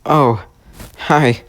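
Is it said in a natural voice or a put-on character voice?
natural. It is said in his natural voice.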